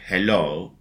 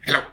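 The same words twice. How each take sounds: First: It is said slowly. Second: It is said fast.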